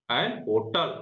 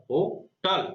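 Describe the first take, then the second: First: Said in the usual way. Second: hotel with a light हो and the टल stressed. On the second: Shown as a demonstration. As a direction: lean on the second syllable of hotel. (Hotel में टल पर ज़ोर, हो पर हल्का) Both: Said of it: "पर ज्यादा जोर हो रहा है".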